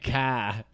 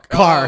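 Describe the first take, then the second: First: It is said in a Boston accent. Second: It is said in a Chicago accent.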